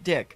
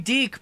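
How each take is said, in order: First: The vowel is a short 'i' sound. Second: The vowel is a long 'ee' sound. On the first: This is how the company itself said it. "they always pronounced it Dick" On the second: This is how the other person says it. "you say Deke"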